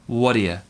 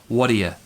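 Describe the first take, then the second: No difference in how they are said.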